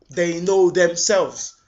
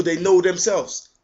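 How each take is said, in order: First: Know stressed, slow and deliberate; slow emphatic repeat. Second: Said in the usual way. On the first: Real, not acted. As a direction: lean on know, drag the whole line slowly.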